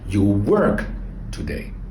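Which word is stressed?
work. The stress falls on the verb work. The focus is on the action being done.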